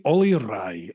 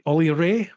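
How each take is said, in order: First: "Rai" said like rye; "Ollie Rai" ending in the rye sound. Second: "Ray" said like ray of light; "Ollie Ray" ending in the ay sound. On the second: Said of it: "It's Ollie Ray". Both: Shown as a demonstration.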